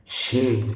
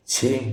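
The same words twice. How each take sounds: First: क्षेम begun with a "sh" sound; correct pronunciation. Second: क्षेम begun with a "chh" sound; wrong pronunciation. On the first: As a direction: say क्षेम slowly as "kshem". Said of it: "क्षेम ये होगा". (क्षेम को "क्ष" से बोलें) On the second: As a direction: say क्षेम as "chhem". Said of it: "ये क्षेम नहीं होगा". (क्षेम को "छेम" बोलें) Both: Shown as a demonstration.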